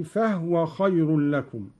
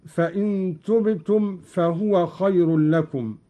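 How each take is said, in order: First: فهو said fahwa with the ha unvowelled; silent ha. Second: Said in the usual way. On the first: Shown as a demonstration. Teacher demonstrating Qalun's sukun on the ha, chanted. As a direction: read فهو as fahwa, not fahuwa. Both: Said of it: "قرأ قالون بإسكان الهاء".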